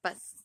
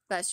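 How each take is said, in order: First: The s sound is dull, pushed against teeth. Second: The s sound is crisp and clear. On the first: The speaker calls it wrong. "it just doesn't sound quite as crisp" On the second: The speaker calls it right. "instead of bus"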